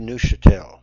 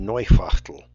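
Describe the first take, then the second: First: The name is pronounced the French way. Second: The name is pronounced the German way.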